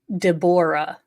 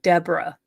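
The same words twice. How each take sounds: First: The O sound in the name is pronounced. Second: The O sound in the name is silent. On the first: This is how others say the name. The speaker calls it right. "how other people pronounce this man's name" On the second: This is how the speaker would have guessed it. The speaker calls it wrong. "I would have figured the O was silent"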